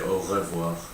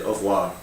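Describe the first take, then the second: First: It is said carefully with every sound pronounced. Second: It is said fast with some sounds dropped. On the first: The speaker calls it right. "But try and say au revoir" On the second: The speaker calls it wrong. "now I tend to say au revoir"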